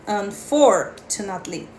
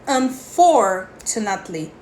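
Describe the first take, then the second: No difference in how they are said.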